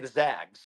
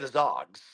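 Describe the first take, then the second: First: The vowel sounds like the one in 'bag'. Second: The vowel sounds like the one in 'bog'. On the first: The speaker calls it right. "you say the Zags" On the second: The speaker calls it wrong. "You don't say the Zogs"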